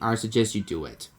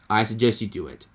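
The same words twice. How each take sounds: First: It is said in his normal voice. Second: It is said in a Donald Duck voice.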